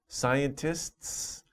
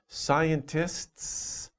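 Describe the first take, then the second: No difference in how they are said.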